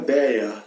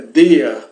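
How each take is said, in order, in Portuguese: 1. A palavra começa com um som de d mais fraco. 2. A palavra começa com um som de d forte. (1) "não é deia" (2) "é dia, com um D forte"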